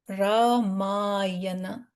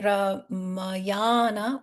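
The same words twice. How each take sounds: First: The first two syllables have short vowels. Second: The first two syllables have long vowels. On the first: "short r and short m" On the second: "we would have a long line here instead of Ra and Ma"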